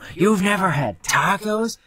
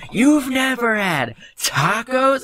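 First: It is said at a louder volume. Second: It is said at the loudest volume.

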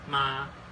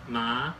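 First: The pitch stays high and level. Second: The pitch rises from mid to high. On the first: Mother. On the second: Hemp.

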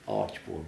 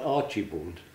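First: The name has no extra 'i' sound. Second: The name has an extra 'i' sound in it. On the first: The speaker calls it right. "There was no I in it" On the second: The speaker calls it wrong. "not Archibald"

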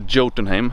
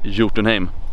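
First: The word begins with an English J sound. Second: The word begins with a Y sound. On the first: The speaker calls it wrong. "In English, so I don't say Jotunheim" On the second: The speaker calls it right. "I say Jotunheim"

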